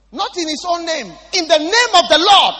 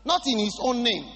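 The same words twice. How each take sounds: First: Higher, much louder preached cry; thundering preacher emphasis; preaching shout. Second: Said in the usual way. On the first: Real, not acted. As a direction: shout it out with full force.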